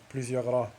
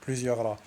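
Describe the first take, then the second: No difference in how they are said.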